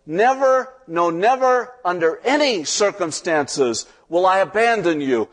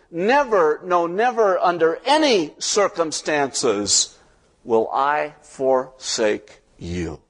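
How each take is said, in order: First: God shouting the promise. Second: Shouted promise, fading. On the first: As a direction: cry out the promise at full voice. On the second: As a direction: shout it, then let it settle slowly. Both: Acted. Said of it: "God shouts out the promise".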